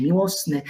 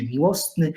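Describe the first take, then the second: First: Said in the usual way. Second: "miłosny" with a t sounded between s and n; older pronunciation. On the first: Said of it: "dzisiaj miłosny". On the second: Shown as a demonstration. Lecturer quoting older Polish, "miłosny" with the t kept. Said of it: "Dawniej mówiliśmy".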